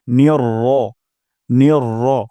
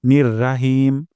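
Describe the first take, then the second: First: নির র with short firm র, louder; correct short r demo. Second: নির রাহিম with long open রা; wrong raa demo. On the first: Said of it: "র উচ্চারণ করব". (সঠিক উচ্চারণ র) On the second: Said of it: "আমরা রা বলে ফেলি". (ভুল উচ্চারণ রা) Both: Shown as a demonstration.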